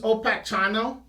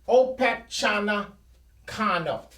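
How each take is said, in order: First: The name is said in a shortened form. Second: The name is said with extra syllables. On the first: This is how the English say the name. "The English use" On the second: This is how the Native Americans said the name. "the Native Americans actually called him"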